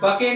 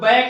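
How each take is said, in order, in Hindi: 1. अंतिम e दूसरे अक्षर की तरह बोला जाता है। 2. स्वर छोटा है, जैसे cat में। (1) "बके नहीं पढ़ेंगे" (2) "इसको बैक नहीं पढ़ेंगे"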